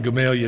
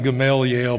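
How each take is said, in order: First: The name ends with an 'ah' sound. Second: The name ends with an 'el' sound. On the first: This is how locals say it. The speaker calls it right. "They call it Gamalia down there" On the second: This is how the spelling suggests saying it. The speaker calls it wrong. "It looks like Gamaliel, but you don't say it that way"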